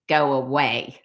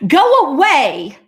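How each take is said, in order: First: Low, unbothered copycat repeat; teasing low-pitched parroting; mimicking echo. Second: High, loud, slow "go away"; angry cat's drawn-out command; mad cat. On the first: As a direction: echo it back coolly, much lower. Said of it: "when somebody repeats everything you say". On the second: Acted. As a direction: send it off with a cross shout. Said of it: "that cat is mad".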